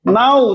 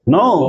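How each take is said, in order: First: The vowel sounds like the one in 'now'. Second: The vowel sounds like the one in 'go'. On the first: The speaker calls it wrong. "तो क्या बोलेंगे, नाउ" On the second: The speaker calls it right. "लेकिन पढ़ना है क्या है, नो"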